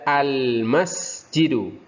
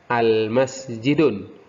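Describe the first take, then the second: First: The word ends on a vowel without n. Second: The word ends with an added n sound. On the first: The speaker calls it right. "Ketika ada alif lam dibaca al-masjidu" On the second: The speaker calls it wrong. "hati-hati jangan sampai terbaca al-masjidun"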